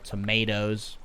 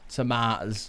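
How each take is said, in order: First: Tomatoes is said with an American pronunciation. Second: Tomatoes is said with a non-American pronunciation.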